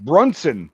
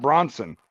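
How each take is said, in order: First: "Brunson" said loud, with the first vowel as in "run"; correcting a name. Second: "Bronson" with an open o in the first syllable; mispronounced name. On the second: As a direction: show the mistaken "Bronson", o instead of u. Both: Shown as a demonstration. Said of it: "not Bronson".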